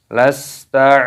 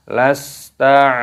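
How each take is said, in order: Both takes have the same delivery.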